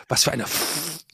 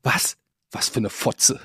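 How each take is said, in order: First: Softer, the swear word broken off at "F-"; quiet cut-off curse. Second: Quiet aside. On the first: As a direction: say "Was für eine F-" under your breath, stopping on the F. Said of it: "so hat sie es gesagt". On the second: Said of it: "zu mir hat sie das leise ins Ohr gesagt". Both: Retold or imitated.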